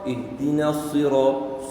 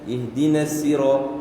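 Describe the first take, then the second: First: The s sound is thick and heavy. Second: The s sound is thin and light. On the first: "Jika sad, ... dia tebal, dia isti'la"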